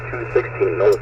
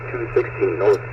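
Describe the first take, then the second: No difference in how they are said.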